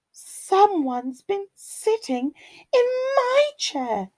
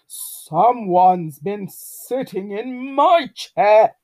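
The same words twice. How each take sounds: First: High, lilting mother bear voice; Mummy Bear. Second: Loud, slow bear growl; growling Daddy Bear. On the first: Mummy Bear finds her chair used, high lilting complaint. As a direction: pitch it high as a put-out mama bear. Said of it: "rumbled Mummy Bear". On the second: Daddy Bear finds his chair used, loud slow growl. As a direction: growl it out as an indignant papa bear. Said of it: "growled Daddy Bear". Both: A narrator's reading.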